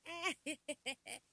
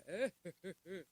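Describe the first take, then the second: First: High, loud imitated cackle; mock laugh. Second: Loud imitated chuckle at usual pitch; mock laugh. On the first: Mimicking friends carrying on, high mock laugh. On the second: Mimicking friends carrying on, loud mock chuckle. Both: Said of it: "Why y'all all like".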